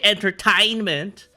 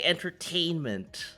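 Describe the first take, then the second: First: The letter A is said as a plain A sound. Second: The letter A is said as an E sound. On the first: The speaker calls it wrong. "you don't say entertainment" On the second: The speaker calls it right. "You say entertainment"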